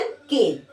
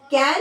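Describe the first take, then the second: First: केन, the drawn-out cane sound; केन pronounced like the word cane, dropping lower in pitch. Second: कैन, the short can sound; कैन with the open vowel, as in the word can. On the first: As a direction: say केन with a long e vowel, as in cane. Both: Shown as a demonstration. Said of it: "pronunciation different होता है".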